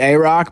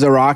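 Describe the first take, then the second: First: The 'a' is said fully, like the letter A. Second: The 'a' is reduced to a short 'uh' sound. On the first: The speaker calls it right. "it's probably a rock" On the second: The speaker calls it wrong. "a rock sounds like Iraq"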